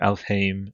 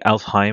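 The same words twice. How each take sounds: First: The last syllable sounds like 'aim'. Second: The last syllable sounds like 'I'm'. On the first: The speaker calls it right. "but it's actually Aim, so Alfheim" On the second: The speaker calls it wrong. "we've been saying Alfheim, and like we go the I'm"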